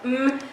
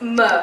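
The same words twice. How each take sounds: First: The M sound is held with no vowel. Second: The M sound has an added vowel after it. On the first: The speaker calls it right. "instead of" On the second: The speaker calls it wrong. "incorrect phonic sounds"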